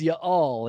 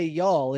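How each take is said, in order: First: "y'all" split in two, ya-all; audible apostrophe. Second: Said in the usual way. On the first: Shown as a demonstration. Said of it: "It's like you hear the apostrophe". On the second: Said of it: "It's y'all".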